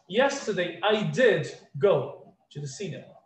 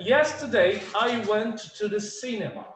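First: "did" stressed and set apart from "go"; slow down and lean on "did"; emphatic DID. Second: Said in the usual way. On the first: Shown as a demonstration. Teacher showing emphasis in the past, stressing "did". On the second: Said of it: "Eu poderia falar".

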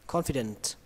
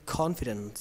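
The two takes are said the same way.

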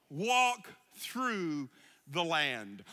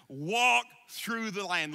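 First: Each word slowed and weighed; slow solemn repeat. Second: Said in the usual way. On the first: Shown as a demonstration. Pastor repeats the charge to the church slowly. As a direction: let it sink in. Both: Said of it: "I want you to walk through the land".

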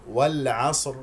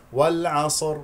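First: "والعصر" with no vowel on the ص; correct silent ص. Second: "والعصر" with an extra vowel after ص; mistaken voweled ص. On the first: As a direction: run ص straight into a heavy ر in "والعصر". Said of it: "ولذلك يجب أن نقول". (نطق "والعصر" بصاد ساكنة) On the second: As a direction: wrongly say "والعصر" as wal-'asor. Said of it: "هنالك من يخطئ ويقول". (نطق "والعصر" خطأً بتحريك الصاد) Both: Shown as a demonstration.

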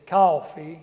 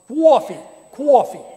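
First: Loud Southern-style "Coffee"; Southern accent. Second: Loud, high New York "coffee" with a kw glide, "kwaw-fee"; Beacon, New York accent. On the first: Preacher showing the congregation how the South says coffee, Southern accent. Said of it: "is from the South". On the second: Showing how they say it up here, exaggerated New York accent. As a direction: punch out "cwoffee" like a New Yorker. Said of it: "That's how they say it in Beacon". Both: Shown as a demonstration.

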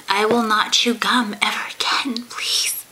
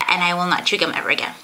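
First: Hushed, pleading promise; whispering. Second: Said in the usual way. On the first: Pretend. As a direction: whisper it like a guilty kid. Mock contrite promise after complaints.

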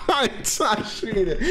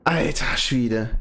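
First: Laughing. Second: Said in the usual way. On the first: Real, not acted. Laughing right after donation.

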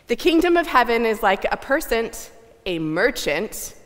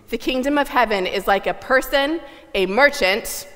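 First: Loud theatrical melodrama announcement; overwrought stagey melodrama. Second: Louder, fully hammed-up stage reading; bigger stagey melodrama. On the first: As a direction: ham it up for the boos. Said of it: "we're gonna read this like a melodrama". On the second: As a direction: push the melodrama even further. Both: Shown as a demonstration.

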